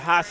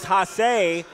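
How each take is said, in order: First: The name is said with an English accent. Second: The name is said with a French accent.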